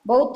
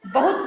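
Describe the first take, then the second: First: Teacher voices the wrong बहुत to warn pupils; wrong form said. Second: Teacher gives the correct बहुत to pupils; correct form said. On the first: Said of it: "बहुत तो गलत होता है". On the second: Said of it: "बहुत सही होता है". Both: Shown as a demonstration.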